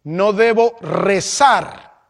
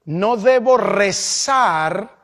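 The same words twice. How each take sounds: First: No debo rezar repeated slowly with a falling close on debo; slow firm repeat of no debo rezar. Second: No debo rezar, drawn out slowly with weight on debo; slow teaching stress on debo in no debo rezar; slow emphatic. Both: Shown as a demonstration. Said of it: "Lo repito".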